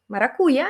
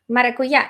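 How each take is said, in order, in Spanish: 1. El acento cae donde lo pone el ruso. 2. El acento cae donde lo pone el español. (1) "Maracuya en ruso" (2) "Él decía maracuyá"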